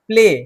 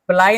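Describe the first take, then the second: First: The vowel sounds like 'ay', as in 'day'. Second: The vowel sounds like 'eye', as in 'ply'. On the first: The speaker calls it right. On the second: The speaker calls it wrong. "प्लाई नहीं बोले हम"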